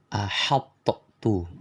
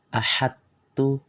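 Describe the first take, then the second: First: The t is released with an echoing bounce. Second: The emphatic sound merges fully, leaving no trace. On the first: "mengkolkolahkan huruf to" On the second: "cara bacanya yang salah"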